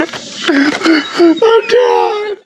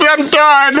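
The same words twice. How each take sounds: First: Hammed-up tearful shout; mock crying wail. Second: Said in the usual way. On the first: Overwhelmed by the animals.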